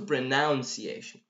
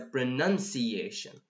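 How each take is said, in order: First: The second syllable sounds like 'noun'. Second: The second syllable sounds like 'nun'. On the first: The speaker calls it wrong. "So it's not a pronunciation" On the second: The speaker calls it right. "It's a pronunciation"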